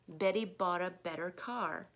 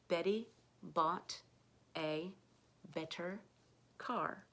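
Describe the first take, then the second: First: The sentence is spoken at a normal, quicker pace. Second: The sentence is spoken very slowly and carefully.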